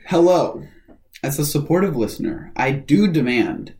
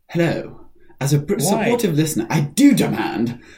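First: It is read in the speaker's ordinary accent. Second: It is read in a put-on British accent.

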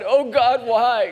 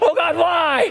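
First: It is said at a normal loudness. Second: It is said louder, more desperately.

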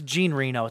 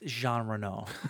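First: The first name has an Americanized pronunciation. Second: The first name has a non-American pronunciation. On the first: The speaker calls it wrong. "It's how I've always said his name" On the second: The speaker calls it right. "I know how you say his name"

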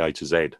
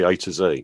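First: It is said the British way. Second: It is said the American way.

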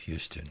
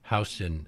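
First: The first syllable sounds like 'hue'. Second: The first syllable sounds like 'how'. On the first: This is the name of the Texan figure. The speaker calls it wrong. "and not Houston" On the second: This is the New York street name. The speaker calls it right. "is pronounced Houston"

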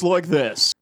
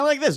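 First: The voice is deep. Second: The voice is high-pitched. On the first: This is the voice after it changed. "next it's like this" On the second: This is the voice before it changed. "one day you're talking like this"

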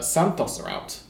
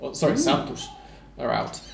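First: It is said in the speaker's ordinary accent. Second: It is said in a mock Brazilian accent.

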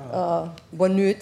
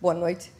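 First: Said with an Azorean Portuguese pronunciation. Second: Said with a standard Portuguese pronunciation. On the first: "they say boa noite" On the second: "instead of boa noite"

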